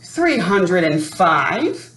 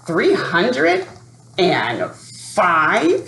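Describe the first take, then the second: First: Slow, proud announcement. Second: Muttered. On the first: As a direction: spell out "Three hundred and five" slowly and proudly. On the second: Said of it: "he muttered". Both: Acted.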